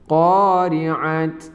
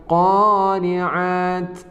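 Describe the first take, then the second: First: The word ends with a t sound. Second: The word ends with a t sound.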